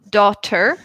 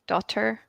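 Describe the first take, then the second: First: The middle t sound is crisp and clear. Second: The middle t sound is relaxed and soft. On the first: "I would say daughter" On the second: "you're more relaxed with it"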